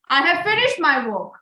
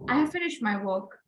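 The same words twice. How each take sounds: First: It is said loudly. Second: It is said quietly.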